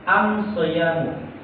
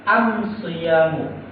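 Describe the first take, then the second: No difference in how they are said.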